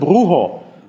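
The middle consonant is a breathy h-like sound. "Und das wird zu Brujo"

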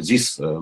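It is said with a heavy Russian accent. "русским this"

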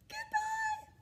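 It is said in a high voice.

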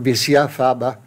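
It is pronounced with a French accent. "in French"

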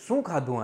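It is asked in a calm, neutral tone. A friendly everyday question. "આ normally પૂછ્યું"

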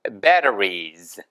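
The middle t is soft, almost like an r. "T 발음이 부드럽게 리을로 미국용에서 변하니까"

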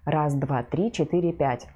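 The low voice sounds muffled and dull. The speaker calls it wrong. "Глухой голос"

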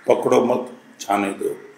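The pause comes after 'मत'.

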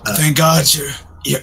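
It is spoken in another character's voice. The speaker calls it wrong.

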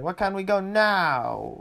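It is said in a whiny, pleading voice.

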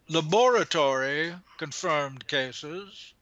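It is said in a put-on British accent.

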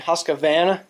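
It is said in a Southern US accent. "all you guys down south say Husqvarna"

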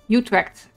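The name is pronounced with English sounds. "Utrecht is what English people would say"

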